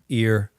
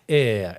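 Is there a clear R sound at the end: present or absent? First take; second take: present; absent. First: It ends with a strong R sound. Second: It ends on an open vowel without R. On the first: The speaker calls it right. "a hard it, ear" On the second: The speaker calls it wrong. "It's not ah"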